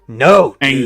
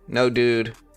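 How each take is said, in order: First: It is said in an angry voice. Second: It is said calmly and flatly.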